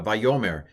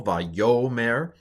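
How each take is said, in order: First: Said in the usual way. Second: "Vayomer" stressed on the middle syllable, va-YO-mer. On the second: Shown as a demonstration. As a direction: lean on the second to last syllable of "Vayomer". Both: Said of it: "the accent is usually on the second to last syllable".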